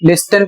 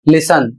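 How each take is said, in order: First: The t sound is pronounced in the middle. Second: The t sound is left out entirely. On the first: The speaker calls it wrong. "इसको बहुत से लोग लिस्टन पढ़ते हैं जबकि गलत है" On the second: The speaker calls it right. "इसे आपको पढ़ना है लिसन"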